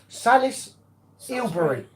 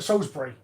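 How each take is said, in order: First: The name has an extra 'il' syllable inside. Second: The name is said without an extra syllable. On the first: The speaker calls it wrong. "Say I can't pronounce it" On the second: The speaker calls it right. "That's what it said"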